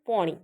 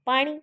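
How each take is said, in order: First: The first vowel is a rounded 'o' sound. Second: The first vowel is an open 'aa' sound. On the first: This is the dialect form. "આને સ્થાને ઓ ઉચ્ચાર" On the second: This is the standard form. "આને સ્થાને ઓ ઉચ્ચાર"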